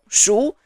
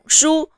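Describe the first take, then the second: First: The syllable is said in the second tone. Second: The syllable is said in the first tone. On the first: "the syllable with the second tone" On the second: "The syllable with the first tone"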